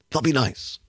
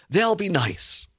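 First: Dropped, understated echo of their hope; wry echo. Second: Mildly imitating naive hope; naively hopeful. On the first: Real, not acted. Host repeats the hope, doubting it. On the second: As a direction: voice their hopeful reasoning, slightly raised. Voicing the regents' naive hope.

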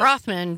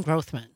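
First: Grothman with an open "ah", "GRAHTH-man"; Trump's pronunciation. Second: Grothman with a long o, "GROHTH-man"; long-o pronunciation. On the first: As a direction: say the first vowel of Grothman as in "father". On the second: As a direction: say the first vowel of Grothman as in "growth". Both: Shown as a demonstration. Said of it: "Donald Trump pronounced it Grothman".

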